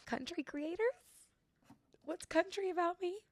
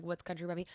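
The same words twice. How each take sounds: First: Mock bewilderment. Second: Said in the usual way. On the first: Her reply to management's label, mock-baffled high voice. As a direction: act baffled in a small high voice. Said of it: "And I was like". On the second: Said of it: "like, I'm like".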